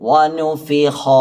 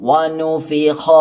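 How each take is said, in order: The two takes are said the same way.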